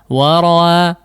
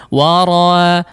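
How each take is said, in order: The two takes are said the same way.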